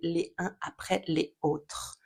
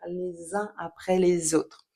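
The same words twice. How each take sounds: First: The words are said separately, choppy, without liaisons. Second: The liaisons are stressed and the words flow together. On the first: The speaker calls it wrong. "ce serait beaucoup plus saccadé" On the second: The speaker calls it right. "j'appuie volontairement sur les liaisons"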